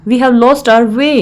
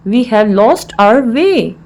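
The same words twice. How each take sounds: First: Said in the usual way. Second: Slow, word-by-word teaching delivery; slow repeat. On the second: Shown as a demonstration. Teacher repeats the English phrase for learners, slowly.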